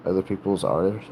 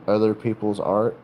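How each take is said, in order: Both takes have the same delivery.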